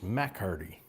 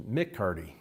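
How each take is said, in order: First: "Mac Hardy" said with an open "Mac"; Scottish pronunciation. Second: "Mick Hardy" said with a short "Mick"; Irish pronunciation. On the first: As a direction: pronounce "Mac Hardy" with Mac, not Mick. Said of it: "if it's the Scottish way". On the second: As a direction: pronounce "Mick Hardy" with Mick, not Mac. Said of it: "like the Irish way". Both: Shown as a demonstration.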